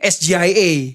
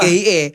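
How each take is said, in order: First: The letters are named with English letter names. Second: The letters are named with Indonesian letter names. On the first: The speaker calls it right. "itu kan in English. Gibran harusnya ngomong" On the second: The speaker calls it wrong. "harusnya Gibran salah juga tuh ngomong"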